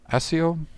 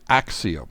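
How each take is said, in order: First: The middle sound is a plain 's' or 'sh'. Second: The middle sound is a 'ks' cluster. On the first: "Some people pronounce it Asio" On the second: "I'm going to try to go with Axio"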